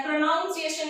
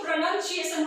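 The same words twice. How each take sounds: First: "प्रोनाउंसिएशन" with noun in the middle; "प्रोनाउंसिएशन" mispronounced with an ow sound; wrong ow vowel. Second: "प्रोनाउंसिएशन" with nun in the middle; "प्रोनाउंसिएशन" with a short u, no ow; correct pronunciation. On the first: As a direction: say "प्रोनाउंसिएशन" as pro-noun-ciation. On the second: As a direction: say "प्रोनाउंसिएशन" as pro-nun-ciation. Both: Shown as a demonstration. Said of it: "प्रोनाउंसिएशन नहीं होता है".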